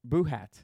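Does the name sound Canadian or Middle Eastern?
Canadian. The name is said with a Canadian sound. "the second one was very Canadian"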